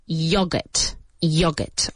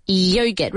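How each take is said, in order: First: YOGURT with a short British o, "YOG-urt"; British pronunciation. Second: YOGURT with a long "yoh" first syllable; American pronunciation. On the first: Teacher shows how the British say it, British pronunciation of YOGURT. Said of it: "in British English, they say yogurt". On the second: English teacher models the word, American pronunciation of YOGURT. American form against British one. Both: Shown as a demonstration.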